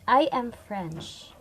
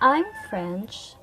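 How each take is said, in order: First: I am is said in full and stressed. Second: I'm is contracted and unstressed. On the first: "a strong form because the word I am is the full form of the word pronounced with stress without contractions" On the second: "a weak form because the word I'm have no stress"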